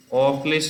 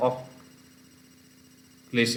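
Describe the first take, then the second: First: Said in the usual way. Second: অক্লেশ as ok, long pause, lesh; slow, divided অক্লেশ: ok - lesh; split after k. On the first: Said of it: "তাহলে অক্লেশ এরকম উচ্চারণ হয়". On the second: Shown as a demonstration. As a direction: move the k of অক্লেশ back, then pause before lesh. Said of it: "কটা কেটে আগে চলে যাচ্ছে".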